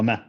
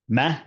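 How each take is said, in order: First: The vowel is said faintly and only partly. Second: The vowel is said fully and clearly. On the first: "pronounce a Dhamma Fatha Kasra at a thirty percent" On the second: "rather than going ma"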